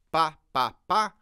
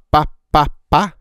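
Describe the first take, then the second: First: Said in the usual way. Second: Pá pá pá spat right into the mic, much louder with bursting p's; popping plosives. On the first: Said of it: "o P e B fica um pouco mais presente". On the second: Shown as a demonstration. Showing how pá pops when spoken close to the mic. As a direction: pop each pá into the capsule. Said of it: "quando eu falo P e B, ele fica mais estourado".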